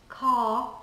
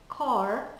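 First: It is said with an English accent. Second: It is said with an American accent. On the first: "in most of England" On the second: "in most of the United States"

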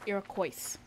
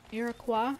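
First: The word ends with an S sound. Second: The word ends without an S sound. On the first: The speaker calls it wrong. "not Iroquois. That is fucking stupid" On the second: The speaker calls it right. "You just can't pronounce the S"

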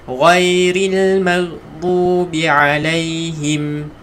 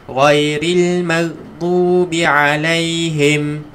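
The two takes are said the same way.

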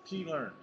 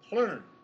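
First: The word is said as two separate syllables. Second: The word is said as a single syllable. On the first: The speaker calls it wrong. "and not P-Learn" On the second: The speaker calls it right. "this is one syllable"

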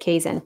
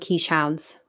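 First: It is said like 'kay-zin', two short syllables. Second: It is said like 'keesh hound', two parts. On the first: The speaker calls it right. "but you pronounce it Kazin" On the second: The speaker calls it wrong. "A lot of people call them quiche hounds"

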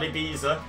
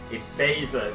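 First: The middle syllable is not said like 'bay'. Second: The middle syllable is said like 'bay'. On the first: The speaker calls it wrong. "not EBEZA" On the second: The speaker calls it right. "the middle syllable is Bay"

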